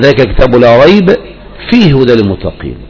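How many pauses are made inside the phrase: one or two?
one. It pauses at only one of the two spots. The speaker calls it right. "لكن لو وقفت عند احدهما فلا تقف عند الاخر، فتقول"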